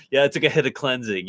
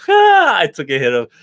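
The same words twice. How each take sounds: First: Said in the usual way. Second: Laughing through the words. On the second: Real, not acted. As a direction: say it while laughing. Laughing at friend's teasing remark.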